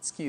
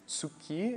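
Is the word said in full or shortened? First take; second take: shortened; full. First: The word is said shortened, in a reduced form. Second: The word is said in full, every sound clear. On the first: "most of the times Japanese pronounce it tsuki" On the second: "some people say tsuki"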